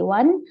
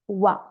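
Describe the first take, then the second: First: The final N sound is pronounced. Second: The final N sound is dropped. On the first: This is a careful teaching pronunciation. The speaker calls it wrong. "when I teach, I say one" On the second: This is how native speakers say it. The speaker calls it right. "natives say wa. wa without N"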